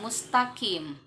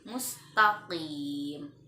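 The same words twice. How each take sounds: First: The q is made further forward in the mouth. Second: The q is made at the back of the tongue. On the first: The speaker calls it wrong. "bukan mustaqim" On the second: The speaker calls it right. "huruf qaf bacanya dari pangkal lidah"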